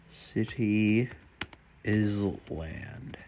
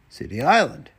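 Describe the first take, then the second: First: Island said as "iz-land" with the s sounded; misreading. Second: Island said as "eye-land" with a silent s; corrected reading. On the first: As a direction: read Island as "iz-land", the s spoken aloud. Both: Real, not acted.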